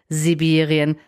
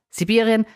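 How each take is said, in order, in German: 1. Das erste s summt, es ist stimmhaft. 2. Das erste s zischt, es ist stimmlos. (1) "dieses stimmhafte S ... meine Beispiele von vorhin" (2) "dieses stimmhafte S ganz normal aussprechen"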